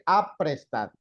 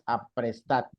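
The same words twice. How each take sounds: First: The stress is on the first syllable. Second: The stress is on the third syllable. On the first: The speaker calls it wrong. "Si fuera la A" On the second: The speaker calls it right.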